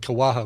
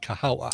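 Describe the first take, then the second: First: The second syllable is 'wa', the third 'ha'. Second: The second syllable is 'ha', the third 'wa'. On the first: The speaker calls it wrong. "I almost want to say Kawaha" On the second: The speaker calls it right. "but it's Kahawa"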